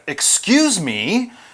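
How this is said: It is said in a slightly angry tone. The speaker is unhappy and wants the person to stop. "if you say it in a slightly more angry way"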